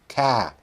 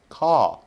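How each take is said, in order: First: Boston accent, with no r sound. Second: British accent, with no r sound. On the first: "I don't have a Boston accent either, but it would be something like" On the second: "in a British accent, it would be something like"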